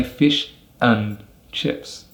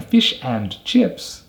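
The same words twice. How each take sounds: First: "and" reduced to a schwa and n; "fish and chips." run together as "fish n chips"; weak "and". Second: "and" with a full vowel, clearly said; "fish and chips" with a strong "and". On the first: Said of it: "we'll say". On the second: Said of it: "instead of saying". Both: Shown as a demonstration.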